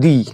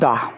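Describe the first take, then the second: First: The word ends in an 'ee' vowel. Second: The word ends in a short 'uh' vowel. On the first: The next word starts with a vowel. "Vowel দিয়ে শুরু হলে তখন তার উচ্চারণ হবে দি" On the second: The next word starts with a consonant. "কোনো word যদি consonant দিয়ে শুরু হয় তাহলে তার আগে টি এইচ ই দি এর উচ্চারণ কি রকম হয় না দা"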